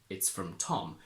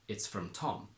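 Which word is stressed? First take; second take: Tom; Tom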